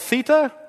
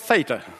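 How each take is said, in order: First: The word is said the British way. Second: The word is said the American way. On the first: "If you grew up in England, that letter of the alphabet was called theta" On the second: "if you grew up in America, it was called theta"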